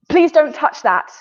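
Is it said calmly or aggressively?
calmly. It is said calmly and at normal speed.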